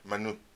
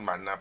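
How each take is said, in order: First: The word ends with an 'oo' vowel. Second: The word ends with an 'ah' vowel. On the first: This is the original pronunciation. "su pronunciación es manú" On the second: This is how people say it today. "Nosotros hoy le decimos maná"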